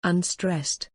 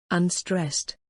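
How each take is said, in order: Both takes have the same delivery.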